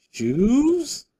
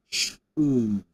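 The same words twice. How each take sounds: First: "Shoes?" rising high and louder; question tune. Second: "Shoes." said low with a falling end; statement tune. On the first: Streamer showing chat the rising question "Shoes?". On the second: Streamer showing chat the flat statement "Shoes.". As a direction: drop the pitch on "Shoes." to state it. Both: Shown as a demonstration. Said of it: "the emphasis on the syllable".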